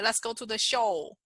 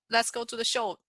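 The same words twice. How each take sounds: First: The last word is drawn out longer. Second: The last word is said quickly.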